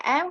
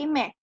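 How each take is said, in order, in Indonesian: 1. Huruf itu dinamai dengan vokal di depan: 'em'. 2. Huruf itu dinamai dengan konsonan di depan: 'me'. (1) "Kalau dalam bahasa Indonesia M" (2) "kalau dalam bahasa Turki me"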